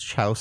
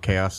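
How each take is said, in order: First: It is said as chouse, rhyming with house. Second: It is said as kay-oss, two syllables. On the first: The speaker calls it wrong. "I couldn't pronounce it" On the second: The speaker calls it right. "That's how chaos is spelled"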